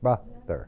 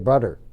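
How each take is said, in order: First: The middle consonant is a 'th' sound. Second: The middle consonant is a 'd' sound. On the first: The speaker calls it right. "Es la famosa T H que uno tiene que poner esa lengua dentro de los dientes" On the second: The speaker calls it wrong. "Con una D sería brother"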